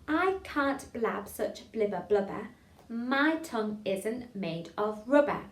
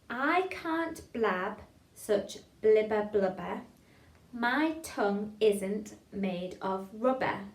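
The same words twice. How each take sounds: First: It is said at a faster pace. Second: It is said at a slower pace.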